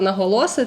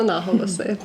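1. Наголос на передостанньому складі. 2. Наголос не на передостанньому складі. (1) "якщо вас дивує моє слово наголоси, це жарт" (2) "Правильно, наголоси"

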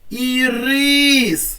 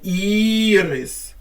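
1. Наголос на другому складі. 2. Наголос на першому складі. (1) "поставимо його на другий склад" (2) "Так, перший"

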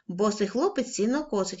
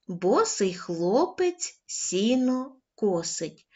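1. Читається швидшим темпом. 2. Читається повільним темпом. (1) "кожного разу будемо пришвидшувати темп" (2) "Спочатку повільно"

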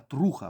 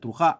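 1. Наголос на першому складі. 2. Наголос на другому складі. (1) "а труха, взагалі правильно казати, бо що це від слова трушний" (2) "я неправильно скажу, не труха"

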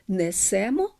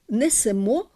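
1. Наголос падає на корінь. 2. Наголос падає на закінчення. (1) "а не" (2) "множини мають також наголос на закінченні"

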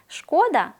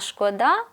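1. Наголос на першому складі. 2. Наголос на останньому складі. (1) "з наголошеним першим складом" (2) "наголошуючи останній склад"

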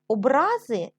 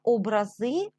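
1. Наголос на другому складі. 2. Наголос на останньому складі. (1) "це коли людина ображається" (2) "це те ж саме, що ікони"

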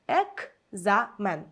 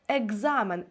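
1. Перед z стоїть глухий звук к. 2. Перед z стоїть дзвінкий звук г. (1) "Воно пишеться з літерою К" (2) "наче чується звук Г"

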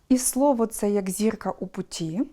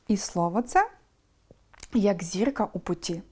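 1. Перед «як» лише коротка пауза. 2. Перед «як» довша пауза.

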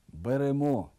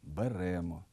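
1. Слово має стандартний наголос. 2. Слово має зсунутий наголос.

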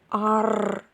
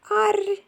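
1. Сказано грубим, хрипким голосом. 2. Сказано тоненьким, ніжним голосом. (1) "Вони перетворювали грубий голос на тоненький і ласкавий. Тигр казав склад з твердим приголосним" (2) "а тигриня йому відповідало"

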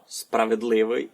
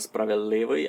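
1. Звук d перед l вимовляється. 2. Звук d перед l випадає. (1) "Є ще пара «дл», «д» та й «л»" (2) "мож спростити на"

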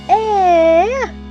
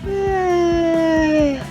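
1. Звук викрикують голосно, бігаючи. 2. Звук розтягнутий, як позіхання. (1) "А цей хлопчик так мчить і кричить. Ось так" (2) "А це бегемот позіхає у зоопарку. Ось так"

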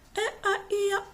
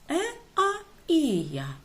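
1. Голосні вимовляють швидше. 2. Голосні вимовляють повільніше.

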